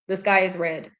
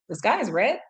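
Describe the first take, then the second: First: The voice falls at the end, like a statement. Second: The voice rises at the end, like a question. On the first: It is a plain statement. "if you say something like the sky is red" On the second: It is a question. "you change the way you say it"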